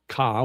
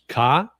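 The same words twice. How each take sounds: First: The word is said on a level middle pitch. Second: The word is said on a high pitch. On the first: "which is middle tone" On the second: "which is up, uh, which is high tone"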